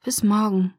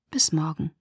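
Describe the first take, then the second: First: A mild sigh on Bis morgen, voiced and falling. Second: Bis morgen whispered, unvoiced and falling. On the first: Bella says goodbye to Edward, sighing. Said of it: "seufzte ich". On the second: Dejected Bella bids Edward goodbye in a whisper. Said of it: "Ich nickte bedrückt". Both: A narrator's reading.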